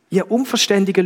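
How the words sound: It is said in a warm, loving but firm tone. "es ist sehr liebevoll gekommen, aber auch sehr deutlich"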